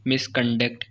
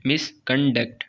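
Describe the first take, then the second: First: "मिसकंडक्ट" in three parts, mis-con-duct; broken into syllables. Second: "मिसकंडक्ट" with gaps, mis, con, duct; broken into syllables. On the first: Teacher showing three syllables, "मिसकंडक्ट" said in parts. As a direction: lightly separate the syllables of "मिसकंडक्ट". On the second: Teacher repeating for students, "मिसकंडक्ट" split into three beats. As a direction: set each syllable of "मिसकंडक्ट" clearly apart. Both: Shown as a demonstration. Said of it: "तीन syllables हैं".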